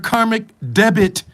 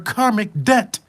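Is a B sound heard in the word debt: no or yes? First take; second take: yes; no. First: The word debt is said with a b sound. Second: The word debt is said without a b sound. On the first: The speaker calls it wrong. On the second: The speaker calls it right.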